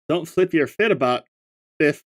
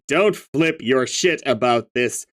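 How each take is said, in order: First: The s sound is lisped, like th or f. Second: The s sound is clear and crisp, no lisp. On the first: "How do I even do a lisp?" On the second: "the most clear and concise voice"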